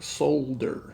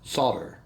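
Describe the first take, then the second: First: The word is said with an L sound. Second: The word is said without an L sound. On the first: This follows the spelling. "it's spelled like solder" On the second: This is how people commonly say it. "everybody I've ever heard say it says solder"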